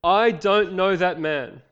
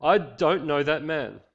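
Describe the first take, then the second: First: Loud, higher, very slow swearing; cursing denial. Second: Slow, firm, a little louder; denial under oath. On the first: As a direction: hurl it out like a curse. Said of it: "began to call down curses on himself and swore". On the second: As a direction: lay it down like a sworn oath. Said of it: "with an oath this time". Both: Acted.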